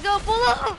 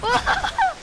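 First: Excited shout. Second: Much higher excited squeal. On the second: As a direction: squeal it high and loud. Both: Real, not acted. Hype calling teammates.

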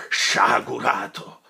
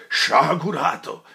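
First: Drawn-out, louder reproach; sonorous slow cry; slow thundering rebuke. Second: Loud, higher cry of reproach; full sonorous cry; shouted rebuke. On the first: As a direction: boom it out slowly. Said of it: "voce che aveva ripresa tutta l'antica pienezza e sonorità". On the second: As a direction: thunder at him. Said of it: "gridò il padre Cristoforo con una voce". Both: Acted.

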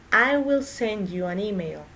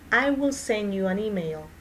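Both takes have the same delivery.

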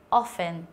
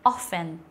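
First: Often again with the t silent; often echoed; repeat silent t. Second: Often said with a silent t, OFF-en. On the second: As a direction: drop the t in often. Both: Shown as a demonstration. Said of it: "đọc là âm câm".

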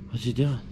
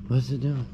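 The two takes are said the same way.

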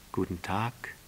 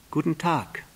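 First: Softer reply with rising end; subdued storybook roses' hello; roses greeting. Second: Higher-pitched prince's hello; lifted storybook greeting; little prince greeting. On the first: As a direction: answer gently, lifting the last word. Roses answer the prince. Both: Acted.

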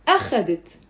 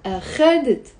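First: أخذت stressed on the opening أ; weight on the A of أخذت; stress on first syllable. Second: أخذت stressed on the middle syllable خَ; stress on second syllable. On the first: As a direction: say أخذت as A-kha-det. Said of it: "the first one was on the أ". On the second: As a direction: say أخذت as a-KHA-det. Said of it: "The stress is on the خ". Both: Shown as a demonstration.

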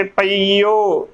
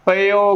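First: ਪਈਓ slowly as pa-ee-o; correct long ee. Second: ਪਈਓ squeezed to pe-o; ਪਈਓ with no long ee, pe-o; wrong short form. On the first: Teacher correcting the misreading, ਪਈਓ with long ee. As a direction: stretch the ee in ਪਈਓ. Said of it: "ਉਚਾਰਨ ਕਰਨਾ ਹੈ". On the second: Teacher naming the wrong pronunciation, ਪਈਓ as pe-o. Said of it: "ਗਲਤ ਉਚਾਰਨ ਹੈ". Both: Shown as a demonstration.

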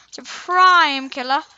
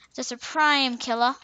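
First: "Supreme" stretched slow and louder with a rising end; emphatic, drawn out. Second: Said in the usual way. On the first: Shown as a demonstration. Gamer hyping up the ninja kit, slow emphatic boast. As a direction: lean hard on "Supreme killer", slow and loud. Repeats phrase building emphasis.

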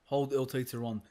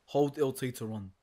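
Both takes have the same delivery.

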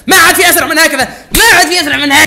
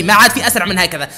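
First: Higher, louder and fast, fired up; fast, loud excited repeat; excited shout. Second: Said in the usual way. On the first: Real, not acted. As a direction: yell it like you just beat the clock.

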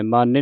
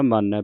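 First: ਮਾਨੈ with a closed final "ay"; wrong ending demo. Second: ਮਾਨੈ with an open final "ai"; correct open ending. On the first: Teacher showing what not to read, ਮਾਨੈ ending "ay". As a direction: say ਮਾਨੈ as "maa-nay". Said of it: "ਮਾਨੈ ਨਹੀਂ ਪੜ੍ਹਨਾ". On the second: Teacher showing the right reading, ਮਾਨੈ ending in open "ai". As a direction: say ਮਾਨੈ as "maa-neh". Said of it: "ਮਾਨੈ ਪੜ੍ਹਨਾ". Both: Shown as a demonstration.

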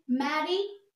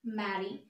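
First: Mary with a strong, drawn-out A, rising; stressed first syllable. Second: Mary said lower and softer, A not stressed; unstressed repeat. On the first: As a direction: lean hard on the A of Mary. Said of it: "पहले जब Mary बोले तो ए पे बहुत ज़्यादा stress पड़ा". (Mary के ए पर ज़्यादा ज़ोर) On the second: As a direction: let Mary drop away with a light A. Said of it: "second बार Mary बोलेंगे तो ए पे ज़्यादा स्ट्रेस नहीं". (मैरी के ए पर हल्का ज़ोर) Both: Shown as a demonstration.

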